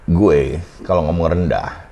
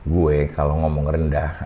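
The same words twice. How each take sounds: First: Low voice with cheekbone resonance, sounding clear. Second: Low voice without cheekbone resonance, sounding muffled.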